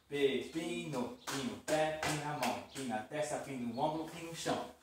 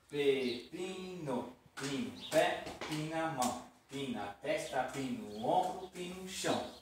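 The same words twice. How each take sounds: First: It is said at medium speed. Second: It is said slowly.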